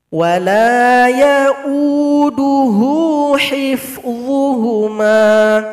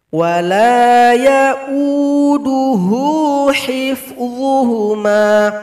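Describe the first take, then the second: Both takes have the same delivery.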